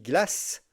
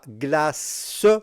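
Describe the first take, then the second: First: The word is said with one syllable. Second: The word is said with two syllables. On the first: The speaker calls it right. "on dit glace ... c'est bien une syllabe et pas deux syllabes" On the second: The speaker calls it wrong. "on ne dit pas glace"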